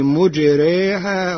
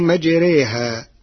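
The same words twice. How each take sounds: First: The first syllable has the vowel u. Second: The first syllable has the vowel a.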